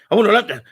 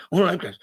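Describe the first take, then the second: First: Louder, half-laughing mock of his buddy; mock eager demand. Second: Said in the usual way. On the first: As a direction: blurt it out like the eager friend. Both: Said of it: "He had a stuttering problem".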